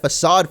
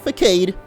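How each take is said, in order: First: The word has its standard pronunciation. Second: The word has a childish, nonstandard pronunciation. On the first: The speaker calls it right. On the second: The speaker calls it wrong.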